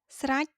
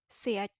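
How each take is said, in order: First: It is said in standard written Khmer form. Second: It is said in the Phnom Penh accent.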